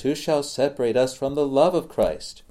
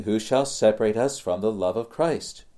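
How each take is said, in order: First: "love" lifted high and leaned on, the rest of the question even; stress on love. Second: Said in the usual way. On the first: Shown as a demonstration. Preacher showing the old reading to his congregation, stress on "love". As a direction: land the weight on "love", not on "Christ". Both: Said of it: "with the emphasis upon the love of Christ".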